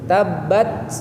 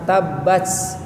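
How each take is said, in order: First: The final t has a slight, short hiss. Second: The final t has a strong, long hiss. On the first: The speaker calls it right. "Desisnya atau ada napasnya itu sedikit" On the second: The speaker calls it wrong. "Jangan terlalu banyak, jangan tabbats ya"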